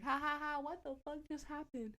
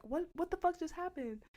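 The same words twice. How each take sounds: First: High mock laughter into the question; imitated cracking up. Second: High-pitched retold alarm; startled confusion. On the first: John cracking up after the crash, imitated laughter. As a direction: play it as amused disbelief. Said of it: "cracking up. Like, he's laughing". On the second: Reacting to friend's sudden yelp, startled confusion. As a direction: ask it high, taken aback.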